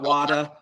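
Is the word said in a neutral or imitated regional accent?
imitated regional. It is said in an imitated regional accent. The speaker calls it wrong. "not wada"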